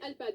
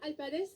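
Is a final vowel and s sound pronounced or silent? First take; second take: silent; pronounced. First: The name ends on the d sound. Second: The final letters are pronounced as an extra syllable. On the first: The speaker calls it right. "on dit Alpad" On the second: The speaker calls it wrong. "on ne dit pas Alpades"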